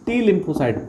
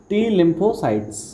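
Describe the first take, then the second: First: Said in the usual way. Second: टी lymphocytes drawn out very slowly, word by word; slow drilled term. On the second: Shown as a demonstration. Teacher drilling the class on a key term, very slow. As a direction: spell the term out slowly for students to memorise. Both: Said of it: "याद रखेंगे हम।".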